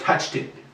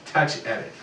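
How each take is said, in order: First: The words blur together, sounding like 'touched it'. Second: The two words are kept apart as 'touch edit'. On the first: The speaker calls it wrong. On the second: The speaker calls it right.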